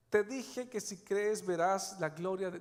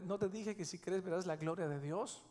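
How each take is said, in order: First: Slow emphatic. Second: Said in the usual way. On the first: Shown as a demonstration.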